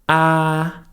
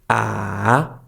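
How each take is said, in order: First: The pitch stays level and flat. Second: The pitch dips down, then rises again. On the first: "The first tone is the flat tone" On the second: "goes down and then up again"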